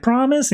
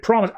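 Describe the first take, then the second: First: Put-on high rising promise, a young boy asking; eager boy's "Promise?" with the tune lifting up at the end; pleading question. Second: A father's settled "Promise.", dropping at the end; reassuring answer. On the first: Young Bruce begging his father, rising "Promise?". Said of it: "He's like". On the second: Retold or imitated. Thomas answering his son, falling "Promise.". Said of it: "And he's like".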